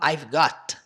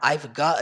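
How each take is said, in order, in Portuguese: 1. O T em "got" é claramente pronunciado. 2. O T em "got" é suavizado em uma vogal. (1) "ele não fala I've got, com o som de T" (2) "Ele fala dessa forma"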